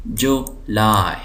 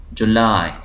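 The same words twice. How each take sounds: First: July slowly as JU, laai; syllable by syllable. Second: Said in the usual way. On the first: Shown as a demonstration. Teacher showing two syllables, July slowly split. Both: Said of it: "दो syllable हैं".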